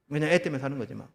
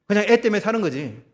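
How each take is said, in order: First: Said in the usual way. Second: Louder, punching 애 in "그냥 애 때문에 사는 거지"; emphatic declaration. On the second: Acted. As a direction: land hard on 애 as if fed up. Preacher sighs over a marriage.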